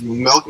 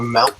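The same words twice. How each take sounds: First: Said in the usual way. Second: MILK mimicked as "melk"; imitated Canadian milk. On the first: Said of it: "how you said milk instead of milk". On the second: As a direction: copy someone's milk with an E. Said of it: "it's how you said milk instead of milk".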